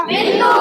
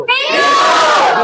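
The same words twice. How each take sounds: First: Said in the usual way. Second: Bellowed answer. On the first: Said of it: "थोड़ा कम सुनते हैं". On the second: Real, not acted. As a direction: bellow it out slowly at a high pitch. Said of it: "अब ऐसा ढाकर के नहीं".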